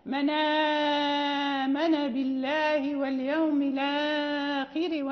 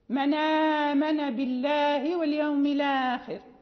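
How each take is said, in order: First: The lengthened vowels are drawn out fully. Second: The lengthened vowels are held only briefly. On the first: "وفيه الإشباع" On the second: "فقرأنا بالقصري لقالون"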